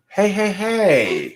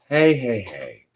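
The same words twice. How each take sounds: First: It sounds disapproving, like scolding someone. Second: It sounds soothing, like calming people down. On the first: Stop what you are doing. "what are you doing here? Stop that" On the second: Everybody calm down. "That's the one that Luca Mil- Mullen was talking about"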